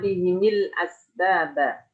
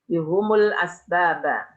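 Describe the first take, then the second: First: Both the h and the m take an i vowel. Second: Both the h and the m take a u vowel. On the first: This is one reciter's reading. "bikasril ha wal mim" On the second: This is another group of reciters' reading. "bidhammil ha wal mim"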